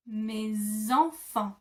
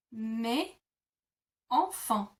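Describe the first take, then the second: First: "Mes enfants" very slow, the S sounded as a Z joined to "enfants"; liaison with Z. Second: "Mes", pause, "enfants", no linking sound between them; split into syllables. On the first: Teacher to learners, modelling the Z liaison. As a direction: say "Mes enfants" as me-zenfants, slowly. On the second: Teacher to learners, separating the words first. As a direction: keep "Mes" and "enfants" apart with a clear stop. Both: Shown as a demonstration. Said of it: "the S becomes a Z sound".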